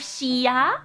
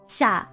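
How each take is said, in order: First: The sounds are said as two separate syllables. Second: The sounds blend together into one syllable. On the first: The speaker calls it wrong. "instead of shia" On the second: The speaker calls it right. "So it's like sha"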